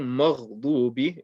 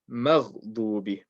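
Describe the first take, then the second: First: "مغضوب" with a thick, heavy Mim; wrong, heavy Mim. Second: "مغضوب" with a light, thin Mim; correct, light Mim. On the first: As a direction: darken the first syllable of "مغضوب" to a backed "maw". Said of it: "Saying مغضوب is incorrect". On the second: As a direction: open "مغضوب" on a light front "ma", Ghain heavy. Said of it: "keep the Mim light". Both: Shown as a demonstration.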